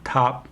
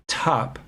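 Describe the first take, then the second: First: The t is released without a puff of air. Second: The t is released with a puff of air. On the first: The speaker calls it wrong. "This is not top" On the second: The speaker calls it right. "It's top"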